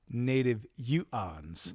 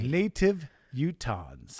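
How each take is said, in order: First: The T is dropped, in a northern Utah accent. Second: The T is pronounced clearly, in standard style.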